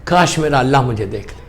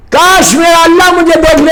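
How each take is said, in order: First: Very low, soft, imagined prayer; quiet anguished longing. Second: Full-voiced preacher's cry; impassioned exclamation. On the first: Retold or imitated. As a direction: murmur the imam's wish with restrained yearning. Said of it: "تو امام نے تڑپ کے کہا". (دھیمی آواز میں تڑپتی آرزو) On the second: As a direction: proclaim the imam's wish to the whole gathering. Preacher repeats the wish out loud. (بلند، پرجوش خطیبانہ پکار)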